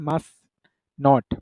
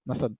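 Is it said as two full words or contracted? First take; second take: full; contracted. First: It is said as two full words. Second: It is said as one contracted word. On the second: "M U S T and apostrophe T"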